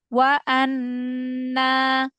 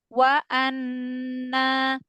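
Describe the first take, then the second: Both takes have the same delivery.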